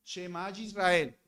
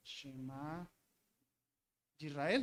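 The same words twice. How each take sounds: First: Said in the usual way. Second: Much softer, low murmured copying; lightly acted scribe murmuring under his breath; mock scribe muttering. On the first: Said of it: "ellos tenían que". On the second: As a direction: mutter it while copying letter by letter.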